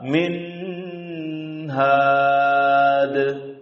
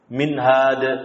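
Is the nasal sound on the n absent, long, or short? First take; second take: long; absent. First: The nasal sound on the n is drawn out long. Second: The n is said with no nasal sound. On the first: "Juga salah min had. Panjangkan dari panjang kuning semestinya" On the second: "tanpa mengeluarkan gunnahnya"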